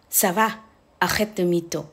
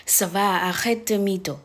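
First: Said in the usual way. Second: Ça va, arrête de mytho, drawn out slowly; slow French demo. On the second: Shown as a demonstration. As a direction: model it slowly for students. (พูดช้าๆ ทีละคำ) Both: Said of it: "ก็จะพูดว่า".

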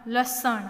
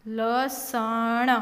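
First: Said in the usual way. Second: Slow, one letter at a time; sounded out. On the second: Shown as a demonstration. Teacher breaking a word down for learners, sounded out. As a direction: stretch લસણ out as la-sa-na.

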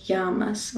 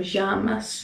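First: "llamas" begun like English Y; Y-sound double L. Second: "llamas" begun with a soft J; J-sound double L. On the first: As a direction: say "llamas" as "yah-mas". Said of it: "more of a Y sound". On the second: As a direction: say "llamas" as "jah-mas". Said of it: "maybe even sort of a J sound". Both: Shown as a demonstration.

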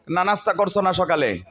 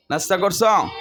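First: Said in the usual way. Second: নাস্তা করছো shouted at the class; loud question to rouse the students; loud asking. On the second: Shown as a demonstration. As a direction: call it out loud to wake the class up. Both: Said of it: "তাহলে জোরে যারে কও".

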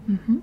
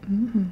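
The two takes are said the same way.

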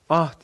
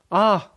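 First: Loud "ah", less sharp than a yelp; echoed cry. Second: Short "ah", higher and much louder; cry of pain. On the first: Mountain answers the boy's cry, echoed "ah". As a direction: throw the cry back as an echo. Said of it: "diye bir ses gelir". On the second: Boy stubs his foot on a stone, cry of pain. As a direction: yelp it out in pain. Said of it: "can acısıyla". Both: A narrator's reading.

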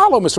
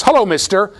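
First: High-pitched quick hello; light, high mimicry of a talking bird; generic bird voice. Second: Lightly imitated shopkeeper greeting; high, full hello to a customer; store manager's voice. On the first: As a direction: toss it off as a high bird greeting. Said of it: "But it wasn't". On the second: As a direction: bird mimicking a manager's human tone. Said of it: "in the voice of the".

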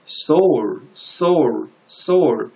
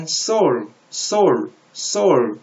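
First: Soul drawn out, o gliding into ul; slow reading. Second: Soul run together as one syllable; quick reading. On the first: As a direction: stretch soul slowly with a tense s. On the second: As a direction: say soul more compactly, tense s into ol. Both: Shown as a demonstration. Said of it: "빨리 읽으시면".

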